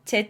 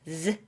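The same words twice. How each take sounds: First: The letter begins with a j sound. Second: The letter begins with a z sound. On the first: The speaker calls it wrong. "Z 아니고" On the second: The speaker calls it right. "아니고 Z, Z 발음입니다"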